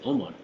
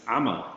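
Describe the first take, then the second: First: It starts with a plain vowel sound. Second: It starts with a throaty ain sound. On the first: The speaker calls it wrong. "people say Omar" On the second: The speaker calls it right. "it's Ama, that's Ain"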